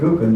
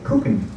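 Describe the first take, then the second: First: The word begins with a hard G sound. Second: The word begins with a K sound. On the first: This is the standard pronunciation. "they don't say gucken" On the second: This is how people in Hessen say it. "they say gucken"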